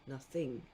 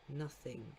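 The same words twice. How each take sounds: First: The stress is on the second syllable. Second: The stress is on the first syllable. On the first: The speaker calls it wrong. "You wouldn't say nothing" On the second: The speaker calls it right. "the stress falls on the first syllable"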